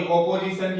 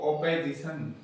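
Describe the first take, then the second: First: Said in the usual way. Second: ओपेजिशन with "pe" replacing "po"; second syllable of ओपेजिशन reduced to "pe"; weakened vowel. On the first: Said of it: "अपोजिशन की बजाय ये बोले". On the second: Shown as a demonstration. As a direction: say ओपेजिशन with a weak e after the p. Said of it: "बोलेंगे इसको".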